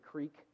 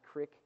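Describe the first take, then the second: First: The vowel is a long ee sound. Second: The vowel is a short i sound.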